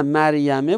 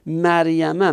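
First: "مریمه" ending in a short e; kasra ending. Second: "مریمه" ending in a short a; fatha ending. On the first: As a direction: say "مریمه" as maryame. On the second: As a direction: say "مریمه" as maryama. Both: Shown as a demonstration. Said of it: "یعنی کسرش به فتحه شده".

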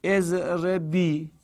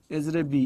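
First: اضربی drawn out slowly, syllable by syllable; slowly spelled out. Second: Said in the usual way. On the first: Shown as a demonstration. Teacher dictating اضربی slowly to students. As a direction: stretch اضربی long and slow for the class. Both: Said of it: "تضربینه رو هم بگو".

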